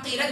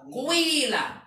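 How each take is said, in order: First: The first vowel is a plain i. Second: The first vowel glides from u into i. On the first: "Pertama qila" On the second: "Domahnya satu per tiga, kasrohnya dua per tiga"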